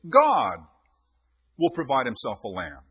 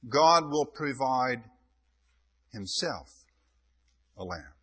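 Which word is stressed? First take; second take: provide; himself. First: The word provide carries the main stress. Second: The word himself carries the main stress. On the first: God is the one who supplies the lamb. "God the provider" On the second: God himself is the lamb. "God becomes the lamb"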